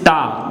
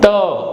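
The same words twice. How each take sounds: First: The t is hard and forceful. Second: The t is soft and light. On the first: The speaker calls it wrong. "You will never say it is ta" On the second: The speaker calls it right. "French is a soft language. We always have ta sound"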